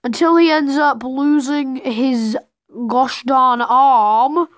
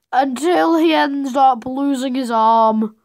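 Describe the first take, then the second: First: "gosh darn arm" slowed right down and pressed; drawn-out emphasis. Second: Said in the usual way. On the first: Shown as a demonstration. Narrator retells the arm loss with slow emphatic stress.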